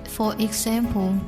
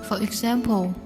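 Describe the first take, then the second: Both takes have the same delivery.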